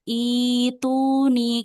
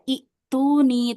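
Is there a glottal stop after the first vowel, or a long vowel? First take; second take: long vowel; glottal stop. First: A long first vowel with no glottal stop. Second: A short first vowel followed by a glottal stop. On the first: The speaker calls it right. "jadi panjang dua harokat, tapi hamzahnya nggak dibaca" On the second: The speaker calls it wrong. "nggak dibaca itu nih"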